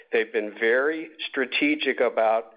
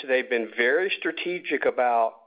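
Both takes have the same delivery.

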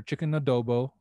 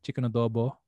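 First: Said in the usual way. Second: Chicken adobo in a natural Filipino accent. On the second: Shown as a demonstration. Saying the dish name the Filipino way, natural Filipino accent. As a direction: say it with your own Filipino accent. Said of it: "in my natural accent".

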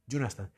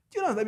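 First: Said in the usual way. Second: Pitched much higher and louder; emphatic repeat. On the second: Real, not acted. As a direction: push the repeat hard and high at the listener.

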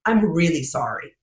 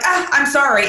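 First: Mean every word of "I'm really sorry"; sincere apology. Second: Higher, breezy "Ah, I'm sorry" tossed off; offhand apology. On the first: Apologizing after thanking him, said low and sincere. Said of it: "far more sincere if I just don't lead with it". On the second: Late speaker brushing past the apology, breezy and insincere. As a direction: toss off "I'm sorry" before diving in. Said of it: "it just seems less sincere". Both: Shown as a demonstration.

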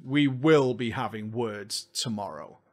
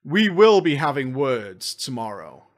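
First: Low, quiet, slow menace; low mock threat. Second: Slow menacing promise; mock threat. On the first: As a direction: growl the warning softly. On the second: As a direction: threaten them, slowly. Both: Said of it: "Oh, yes".

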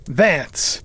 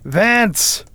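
First: Firm read-out, far milder than a call; reading aloud. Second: High, ringing call into another room; loud call. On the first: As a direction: announce the name from a ledger. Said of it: "he read aloud". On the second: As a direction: summon someone loudly, pitch jumping up. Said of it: "called out in a loud voice". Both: A narrator's reading.

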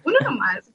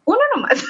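First: Mock disappointment, lightly played; a small let-down reply; disappointed. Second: High-pitched, breaking into laughter; amused. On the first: Answering coworker about a rumored video, mock disappointed. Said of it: "como con decepción". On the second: Retold or imitated. Answering coworker about a rumored video, laughing. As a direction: retort that bursts into a laugh. Laughing retelling of her reply.

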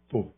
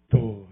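First: A flat, curt tô with no feeling; dry. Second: Heartfelt. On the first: Pastor showing his wife a dry, cold tô. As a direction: toss off tô coldly, like a chore. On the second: Pastor showing his wife a tô full of feeling. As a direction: let tô carry real love, tenderly. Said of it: "olha a diferença do tô". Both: Shown as a demonstration.

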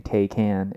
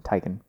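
First: "Taycan" with an ay first and a full "can"; Tay-can pronunciation. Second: "Taycan" with tie first and a reduced ending; Tai-kun pronunciation. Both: Shown as a demonstration. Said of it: "between people saying Taycan and Taycan".

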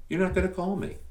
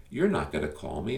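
First: Much higher pitch on "You're not gonna call me" with falling end on "not"; high teasing repeat. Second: Said in the usual way. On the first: Shown as a demonstration. Podcast host teases listeners who won't call, high mock voice. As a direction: tease them in a high, knowing voice.

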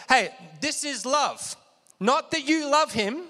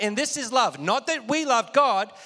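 First: "Not" lifted high in pitch, the rest of the phrase following it, said slowly; stress on NOT. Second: Said in the usual way. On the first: Shown as a demonstration. Preacher shows the congregation the emphasis, stressing "Not". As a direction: lean hard on "Not" to set up the contrast. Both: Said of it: "Catch the emphasis".

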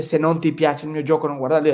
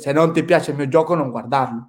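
First: Said in the usual way. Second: Put-on Italian with marked Swedish accent; lightly put-on Swedish accent in Italian; imitated Swedish accent. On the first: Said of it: "él no dice". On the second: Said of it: "su acento".

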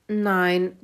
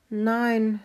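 First: Loud, lightly grunted pig answer; a hint of a grunting pig. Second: High, lightly voiced hen; a drawn single word in a hen's higher voice. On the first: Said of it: "grunzte Kalle". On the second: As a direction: answer as the hen, pitched up. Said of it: "sagte Steffi".

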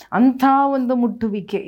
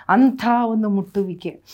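First: ಅಂಥ ಒಂದು ಮುಟ್ಟುವಿಕೆ repeated higher and louder; emphatic repeat. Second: Said in the usual way. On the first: Acted. Pastor repeating to the congregation, higher and louder. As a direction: press the phrase home harder the second time.

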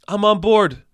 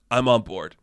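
First: "I'm on board" said higher and louder, eager; excited repeat. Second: Said in the usual way. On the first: Shown as a demonstration. Vlogger cheering for the voodoo witch casting, higher and louder. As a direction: cheer "I'm on board" the second time with a jump up in pitch.

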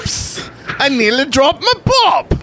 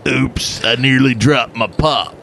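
First: High-pitched, badly faked English accent; horrible English accent. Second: Put-on muddled redneck-English accent; redneck in England. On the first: Host botching a sponsor's requested line, bad English accent. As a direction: squeal it in a terrible English accent. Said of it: "that was a horrible English accent". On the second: Host retrying the line, redneck-English accent. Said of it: "It's a redneck in England".

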